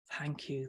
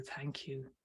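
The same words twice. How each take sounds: First: Said in the usual way. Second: Softer echoed thanks. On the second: Retold or imitated. Reading a viewer's thanks to the guest, much softer.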